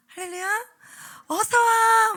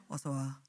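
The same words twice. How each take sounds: First: Put-on bright, high, loud greeting to kids; beaming hello to a child; cheerful welcome. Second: Low, soft, lifeless greeting; gloomy deadpan hello; flat cold welcome. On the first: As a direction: welcome the little ones joyfully. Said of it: "막 이래야 되거든요". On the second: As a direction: mumble it without any joy. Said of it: "뭐 이러면 안 돼요". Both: Shown as a demonstration.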